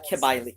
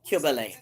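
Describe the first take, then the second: First: The name is said in an anglicized way. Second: The name is said in an ancient Greek way.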